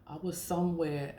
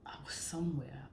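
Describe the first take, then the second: First: Said in the usual way. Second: Sudden hushed whisper; whispered aside. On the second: Real, not acted. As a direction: drop to a breathy whisper as if telling a secret. Dropping to a whisper mid-story.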